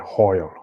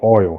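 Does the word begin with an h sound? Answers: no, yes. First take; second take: yes; no. First: The word begins with an added h sound. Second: The word begins with a plain vowel sound. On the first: Someone is putting on an accent. "she'll say hoil" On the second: This is the usual way to say it. "instead of saying oil"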